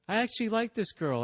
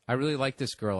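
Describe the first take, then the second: First: It is said in a gushing, emotional tone. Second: It is said flatly, like a stiff reading.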